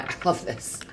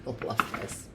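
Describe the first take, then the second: First: Said in the usual way. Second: Soft whispered I love this. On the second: Real, not acted. Reader delighting in the Scorpio reading, whispered. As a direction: breathe it out as a secret. Repeats the phrase then whispers it.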